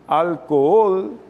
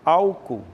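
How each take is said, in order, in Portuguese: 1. A tônica está na última sílaba. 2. A tônica está na primeira sílaba. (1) "a tônica é ol" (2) "a tônica é al"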